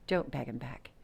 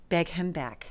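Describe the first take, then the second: First: Don't pressed hard, lower and softer; stress on DON'T. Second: Said in the usual way. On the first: Shown as a demonstration. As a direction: lean into Don't as a firm warning.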